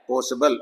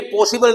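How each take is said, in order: First: पॉसिबल with a short schwa, po-suh-bl; correct pronunciation. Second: पॉसिबल with a full ee sound; the wrong version, पॉसिबल with clear i; wrong pronunciation. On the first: Teacher gives the correct पॉसिबल, low and soft. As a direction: say पॉसिबल low with a weak middle vowel. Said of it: "आ की आवाज आएगी". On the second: Teacher names the wrong way, पॉसिबल with ee. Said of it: "ये भी पॉसिबल नहीं है". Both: Shown as a demonstration.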